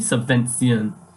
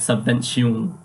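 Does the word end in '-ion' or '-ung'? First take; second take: -ion; -ung. First: The word ends with an '-ion' sound. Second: The word ends with an '-ung' sound. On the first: The speaker calls it right. "when it should be subvention" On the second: The speaker calls it wrong. "I've been saying it subvention, U N G at the end"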